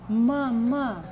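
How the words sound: The word is open and forceful. "É aberto? É com força?"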